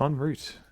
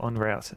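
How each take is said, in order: First: It is said with a plain, ordinary pronunciation. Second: It is said with a put-on Australian pronunciation.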